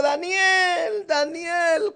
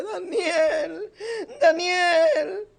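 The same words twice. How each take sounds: First: Calling a name out with raised voice. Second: Sad voice. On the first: King calling Daniel at the lions' den, raised voice. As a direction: call out across the den, voice lifted. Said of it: "elevó su voz y dijo". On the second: King calling Daniel again, sad and tearful. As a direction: call him again, grieving. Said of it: "con voz triste". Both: A narrator's reading.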